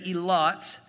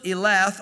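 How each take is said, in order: First: The name ends with a 't' sound. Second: The name ends with a 'th' sound. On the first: "or they would say Elot, ... a TH is the T sound" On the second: "And he built Elath"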